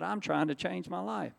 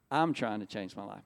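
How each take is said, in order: First: Higher-pitched, earnest insistence; earnest protest. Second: Lower-pitched, sober repeat; sober restatement. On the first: Telling bandmates he means to change, earnest protest. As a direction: plead to be understood, voice lifted. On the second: Repeating his words to the congregation, sober restatement. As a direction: bring the pitch down to drive it home. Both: Retold or imitated.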